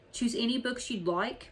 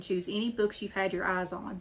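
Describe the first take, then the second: First: Higher-pitched, indignant question; mild shouted disbelief. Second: Said in the usual way. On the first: A narrator's reading. Old bookman objecting to the free book offer, mildly shouted disbelief. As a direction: question it in mild outrage, barely raised. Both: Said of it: "Mister Bendry shouted".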